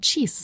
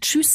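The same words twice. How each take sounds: First: The vowel is unrounded, as in regional speech. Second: The vowel is rounded, as in standard German.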